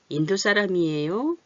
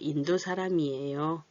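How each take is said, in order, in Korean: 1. 끝에서 음이 올라가요. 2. 끝에서 음이 내려가요. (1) "이렇게 올려서 물어보고 있죠" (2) "답을 말할 때는 좀 내리고"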